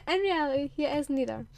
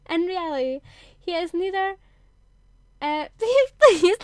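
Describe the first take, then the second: First: Said in the usual way. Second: Giggling, higher and much louder; cracking up. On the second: Real, not acted. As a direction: lose it mid-sentence.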